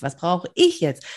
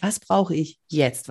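First: Slow, ich carries the weight; stress on ich. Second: Slow, brauche weighted most; stress on brauche. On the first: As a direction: turn the question inward, hitting ich. (Betonung auf „ich“, langsam) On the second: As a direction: ask it slowly, pressing on brauche. (Betonung auf „brauche“, langsam) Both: Shown as a demonstration. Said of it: "in verschiedenen, ähm, Betonungen gesagt".

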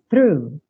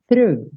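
First: "Through" with th and pulled R; "Through": tongue forward, then curl R. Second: "Through" said quickly, silent GH; clipped "Through", GH silent; quick repeat. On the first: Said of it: "já vai fazer o R puxando". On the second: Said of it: "o G H no final você pode ignorar". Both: Shown as a demonstration.

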